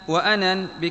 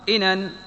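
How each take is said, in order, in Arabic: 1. أول صائت هو 'a' قصير. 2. أول صائت هو 'i' قصير. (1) "وفتحها" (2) "بكسر الهمزة"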